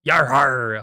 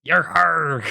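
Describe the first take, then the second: First: Loud first stab at a pirate growl. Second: Higher, loud hammed-up pirate cry. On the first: Vlogger testing her pirate voice, loud amateur pirate cry. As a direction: try out a pirate cry, loudly. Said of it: "I can't do a pirate voice". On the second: Vlogger locks into pirate mode, loud exaggerated cry. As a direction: push the pirate voice harder and higher. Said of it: "lock into my pirate voice". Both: Shown as a demonstration.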